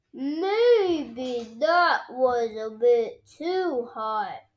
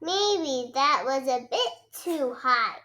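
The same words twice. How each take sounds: First: Slow sheepish admission. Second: Said in the usual way. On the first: A narrator's reading. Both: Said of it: "says Daddy Pig".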